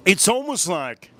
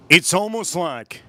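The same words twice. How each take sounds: The two takes are said the same way.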